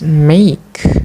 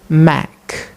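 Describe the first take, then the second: First: The vowel is the 'ay' sound. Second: The vowel is a short 'e' sound. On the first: The speaker calls it right. "They don't pronounce it as make" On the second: The speaker calls it wrong. "this word is produced make, make by the learners"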